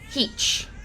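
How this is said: It has an EE vowel and ends in CH.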